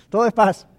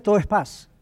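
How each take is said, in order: First: "Todo" hit louder with a falling tune, "es paz" settling; stress on TODO. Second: Said in the usual way. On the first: Shown as a demonstration. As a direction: lean hard on "Todo" to sell the calm. (énfasis en "Todo", más fuerte y cayendo)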